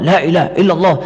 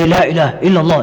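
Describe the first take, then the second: No difference in how they are said.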